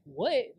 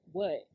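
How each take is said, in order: First: Questioning lift on a retold "What?"; indignant, rising echo; incredulous reaction. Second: Said in the usual way. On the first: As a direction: throw it back in disbelief, rising. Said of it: "I'm like". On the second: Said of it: "but then I get a text".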